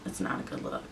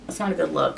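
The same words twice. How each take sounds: First: Whispered, much lower and much softer; a hushed whispered echo of "It's not a good look"; whispered aside. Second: Said in the usual way. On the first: Shown as a demonstration. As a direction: drop to a whisper for the repeat. Repeats the line, then whispers it.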